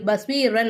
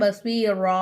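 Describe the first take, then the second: First: The word ends with an 'an' sound. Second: The word ends with a long 'a' sound. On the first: The speaker calls it wrong. "பஸ்வீரன் அப்படின்னு சொல்லாம" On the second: The speaker calls it right. "பஸ்வீரா அப்படிதான்"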